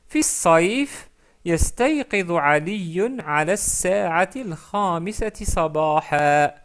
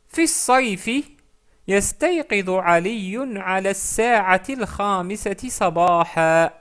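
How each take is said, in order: No difference in how they are said.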